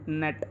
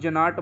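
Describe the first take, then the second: First: The g is silent, no g sound. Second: The g is pronounced before the n. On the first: The speaker calls it right. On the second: The speaker calls it wrong.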